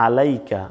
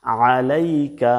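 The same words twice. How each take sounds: First: "আলাইকা" with a simple open a; Bangla reading. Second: Slow "আলাইকা" squeezed from mid-throat; pressed ain. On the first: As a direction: say "আলাইকা" short, no throat squeeze. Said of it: "এখানে বাংলা উচ্চারণে আছে". (চাপ ছাড়া বাংলা উচ্চারণ) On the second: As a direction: press and draw out the first "আ" of "আলাইকা". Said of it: "এখানে কিন্তু চাপ দিয়ে বলতে হবে". (গলা চেপে টেনে আইন উচ্চারণ) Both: Shown as a demonstration.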